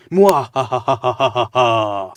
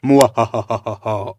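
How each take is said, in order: First: Very slow, drawn-out loud villain cackle; evil laugh. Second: Slow, loud hammed-up villain cackle; evil laugh. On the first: Pretend. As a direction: stretch the cackle out like a theatrical villain. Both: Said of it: "I am evil because I am laughing like this".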